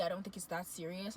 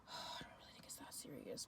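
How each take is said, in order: First: Said in the usual way. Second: Whispered, deflated, low; weary whisper. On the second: Retold or imitated. Giving in to the pushy guy, a weary whisper. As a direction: breathe it out as if giving up.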